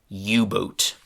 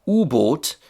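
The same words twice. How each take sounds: First: It is said with an English pronunciation. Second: It is said with a German pronunciation. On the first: "got a different kind of English pronunciation" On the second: "in German, Unterseeboot got shortened to"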